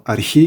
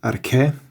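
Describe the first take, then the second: First: The word ends in an 'ee' vowel. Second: The word ends in an 'eh' vowel.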